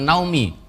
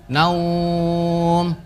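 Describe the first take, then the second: First: The word ends with an added short vowel. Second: The word stops with a lengthened vowel glide. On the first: The speaker calls it wrong. "Dibacanya bukan naumi" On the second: The speaker calls it right. "Mat lain di dibaca panjang"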